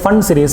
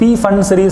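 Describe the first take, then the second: First: The initial P sound is silent. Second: The initial P sound is pronounced.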